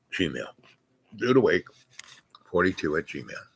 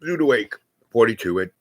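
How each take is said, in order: First: Spelled out very slowly and softer; very slow "Dude Awake", trailing off softer; slow dictation. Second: Said in the usual way. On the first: Shown as a demonstration. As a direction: dictate it slowly so they can write it down. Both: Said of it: "get a hold of me at the Dude Awake".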